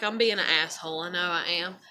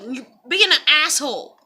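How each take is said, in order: First: Said in the usual way. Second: Louder callout; calling out. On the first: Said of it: "where I'm like". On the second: Retold or imitated. Calling someone out in her video, louder. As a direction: call them out, punching "being". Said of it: "I was like".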